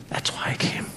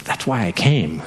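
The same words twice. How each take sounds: First: Breathy whisper of "That's why I came". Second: Said in the usual way. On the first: Acted. Jesus whispering his purpose to the disciples. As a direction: drop it to a bare whisper.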